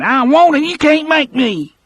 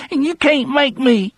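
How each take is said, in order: First: Put-on high, loud whiny child, stress on can't; a frightened child digging in, louder; childish refusal. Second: Put-on high whiny child, stress on can't; a frightened child digging in; childish, trembling. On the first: Percy refuses again. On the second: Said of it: "in a childish, trembling voice".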